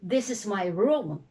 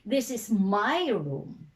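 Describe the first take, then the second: First: The stress falls normally on the word room. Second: The word my carries the strong stress. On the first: It is a plain statement. "It's an ordinary declarative sentence" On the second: It stresses whose room it is. "you want to stress possession"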